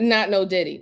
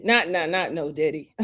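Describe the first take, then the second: First: Said in the usual way. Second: Laughing denial. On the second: Real, not acted. Host laughingly denies the [name] joke to chat. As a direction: laugh it off while denying.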